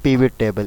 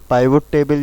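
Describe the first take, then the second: First: The first vowel is a short 'ih' sound. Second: The first vowel is an 'eye' sound. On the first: "इसका real जो नाम होता है पिवट table" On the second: "इसको लोग पाइवट table भी बोलते हैं"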